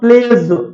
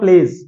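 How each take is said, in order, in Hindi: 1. आखिरी हिस्सा ज़ोर देकर भारी बोला जाता है। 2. आखिरी हिस्सा हल्का और सहज बोला जाता है। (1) "आपने क्या बोला" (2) "मैंने बोला"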